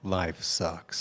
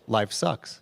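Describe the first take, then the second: First: It sounds deep and gloomy. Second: It sounds cheerful and upbeat.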